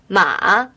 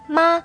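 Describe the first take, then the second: First: The pitch dips down and then rises. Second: The pitch stays level and flat throughout. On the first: "the third tone, a falling rising tone" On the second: "Here 妈 is a flat tone, which we call the first tone"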